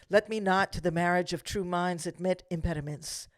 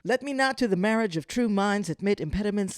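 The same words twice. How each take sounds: First: The line is read at a slower pace. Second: The line is read at a faster pace.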